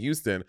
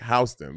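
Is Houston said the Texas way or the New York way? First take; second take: Texas; New York. First: It is said with the Texas pronunciation. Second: It is said with the New York pronunciation. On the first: This is how the Texas city is said. "People from Texas, they will say Houston" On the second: This is how the New York street is said. "but New Yorkers are like Houston"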